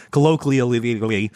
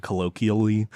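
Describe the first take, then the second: First: "colloquially" with extra babbled syllables, colloquially-ly-vially; tongue-tangled. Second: "colloquially" said cleanly, word by itself; careful attempt. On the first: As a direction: stumble through "colloquially", piling on extra l and v syllables. Trips over the hated word. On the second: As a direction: say "colloquially" once, carefully and intact. First try at a hated word. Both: Real, not acted.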